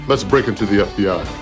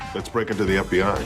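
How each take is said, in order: First: It is said with lots of gusto. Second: It is said flatly, without much energy.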